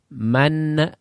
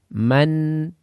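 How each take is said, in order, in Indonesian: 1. Huruf n di akhir berakhir dengan bunyi gema yang memantul. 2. Huruf n di akhir berakhir bersih, tanpa gema. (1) "jangan man. Nah, menarik lidah menimbulkan suara baru"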